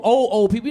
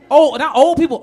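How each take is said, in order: First: Put-on "old, old" doubled for very old; emphatic doubled old; stress on old old. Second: Put-on Old said high and loud, corrected; loud self-correction on Old; stress on old. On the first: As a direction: lean on the repeated old. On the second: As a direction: punch the first Old hard. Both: Shown as a demonstration.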